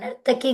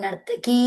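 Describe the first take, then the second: First: The final vowel is short. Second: The final vowel is long. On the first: The speaker calls it wrong. "నర్తకి కాదు" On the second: The speaker calls it right. "దీర్ఘం చెప్పాలమ్మా"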